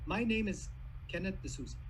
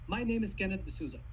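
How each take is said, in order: First: It is spoken more slowly, with a pause. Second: It is spoken at an ordinary conversational speed. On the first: "I took a pause. I took some more time" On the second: "That's my normal speed"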